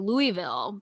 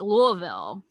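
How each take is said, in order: First: Every syllable is said clearly and fully. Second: The middle is swallowed into a thick, mushy sound. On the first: The speaker calls it wrong. "wanted to say Louisville" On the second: The speaker calls it right. "but I know it's like Louisville"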